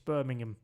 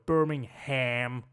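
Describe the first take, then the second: First: The last syllable is reduced to a weak 'um'. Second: The last syllable is a full 'ham'. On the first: The speaker calls it right. "It's Birmingham" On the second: The speaker calls it wrong. "But they go Birmingham. Like, you know, it's a ham"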